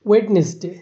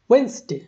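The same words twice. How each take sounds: First: It is said in a Bangladeshi English accent. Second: It is said in a British English accent. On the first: "আমরাও যেমন বলি" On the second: "ব্রিটিশরা উচ্চারণ করে"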